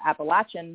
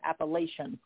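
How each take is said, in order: First: The word is said the local mountain-region way. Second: The word is said the way outsiders say it. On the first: This is how people in the region say it. The speaker calls it right. "In this part of the Appalachian Mountains, we call it Appalachian" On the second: This is how people outside the region say it. The speaker calls it wrong. "not Appalachian"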